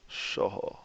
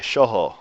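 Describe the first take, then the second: First: Shoho whispered, no voice. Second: Shoho with a breathy h; breathy h starts. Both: Shown as a demonstration. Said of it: "Short and breathy".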